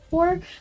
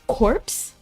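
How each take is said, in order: First: The word ends without a P sound. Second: The word ends with a P sound. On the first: "I've seen it pronounced core before" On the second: "I feel like the P shouldn't be silent"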